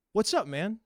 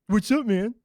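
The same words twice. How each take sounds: First: Said in the usual way. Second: Higher, taunting parody of a greeting; mocking echo. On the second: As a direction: throw the greeting back as mockery. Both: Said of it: "You were mocking me".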